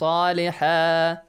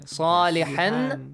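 First: The word ends with a long a vowel. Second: The word ends with an n sound. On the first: The reader stops on this word. "When you stop, will be changed to? ... Alif" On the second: The reading continues past this word. "Tanwin fatha will be changed to?"

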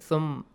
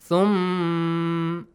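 First: The final m sound is cut short. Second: The final m sound is held for two counts. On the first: The speaker calls it wrong. "don't say" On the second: The speaker calls it right. "a bit longer one. Two counts"

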